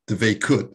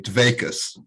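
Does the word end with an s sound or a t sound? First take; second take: t sound; s sound. First: The word ends with a t sound. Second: The word ends with an s sound. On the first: "ancestors on my mother's side called Dveikut" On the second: "my mother would never say it that way. She'd say Dveikus"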